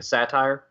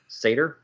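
First: "satire" said SAT-ire, as a question; alternative pronunciation. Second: "satyr" said SAY-ter, as a question; tentative SAY-ter for "satyr"; unsure pronunciation. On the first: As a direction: offer "satire" with a long I ending. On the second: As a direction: try "satyr" with a long A, questioning. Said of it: "Like a satire?". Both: Shown as a demonstration.

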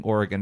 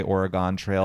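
First: Oregon with a weak final syllable; Oregon as ORE-uh-gun. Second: Oregon Trail with a full GONE. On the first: Shown as a demonstration. Co-host recalling the childhood game, Oregon as ORE-uh-gun. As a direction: end Oregon lightly, like gun. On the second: Retold or imitated. Co-host quoting kids' version of the game, Oregon as ORE-uh-gone. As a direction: make Oregon end like gone. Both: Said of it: "people would say Oregon Trail".

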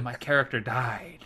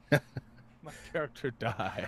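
First: Whispered grave lament; McCoy lament. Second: Slow, soft dramatic delivery; slow grave lament. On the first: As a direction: say it like a doctor declaring death. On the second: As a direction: drag it out like a death notice. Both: Retold or imitated. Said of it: "I turned into McCoy there".

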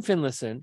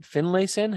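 First: "Finlayson" with a reduced middle syllable, FIN-luh-sun; unsure pronunciation. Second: "Finlayson" with a full LAY in the middle, rising; questioning pronunciation. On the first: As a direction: say "Finlayson" as FIN-liss-un, middle vowel swallowed. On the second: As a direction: try "Finlayson" as FIN-lay-sun, as a question. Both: Real, not acted. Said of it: "How would you say that name?".

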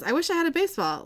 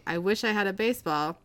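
First: Higher, quick call across the cells; called out loudly. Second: Said in the usual way. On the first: Retold or imitated. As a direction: call it out to the next cell. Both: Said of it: "He says very loudly".

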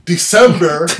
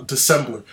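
First: "December" said loudly, stressed on the middle syllable; emphatic correction. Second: "December" slipped into "Decembler"; tag slip. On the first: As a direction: punch out "December" to fix the slip. Corrects own slip on the word. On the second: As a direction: stumble on "December" with an extra L before the last R. Stumbles on the word, then corrects it. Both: Real, not acted.

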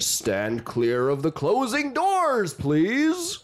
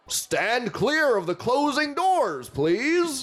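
First: Slow, drawn-out G train announcement; mumbled subway intercom. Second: Slow, high Bronx-style subway announcement; Bronx-flavored intercom call, pitched up; mumbled subway intercom. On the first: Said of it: "how do you say it for the G train". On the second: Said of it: "What's the Bronx sound like". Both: Acted.

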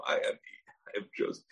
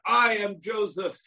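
First: Hushed whispered reveal. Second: High, slow booming reveal; dramatic shout. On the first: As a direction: breathe it out as an awed secret. Repeats Joseph's revelation hushed. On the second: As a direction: proclaim it like a thunderclap revelation. Brothers suddenly hear Joseph's revelation. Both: Acted.

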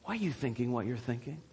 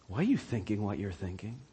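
First: Hushed question. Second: Near whisper. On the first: Hushed repeat of Jesus's question. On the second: Preacher to his congregation, as Jesus, in a searching near whisper. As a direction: lean in and ask it almost under the breath. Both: Acted.

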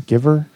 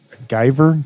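First: "giver" said as GIV-er, rising; short i in giver. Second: "giver" said as GUY-ver, rising; long i in giver. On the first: Host unsure of slang word, giver as GIV-er. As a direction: ask "giver" with the vowel of give. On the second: Host unsure of slang word, giver as GUY-ver. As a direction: ask "giver" with the vowel of guy. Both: Shown as a demonstration. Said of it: "what's a giver".

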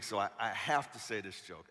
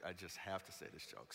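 First: Said in the usual way. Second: Much softer, muttered to himself; quiet aside. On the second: Real, not acted. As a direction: drop the voice, half to yourself. Repeats line as quiet aside.

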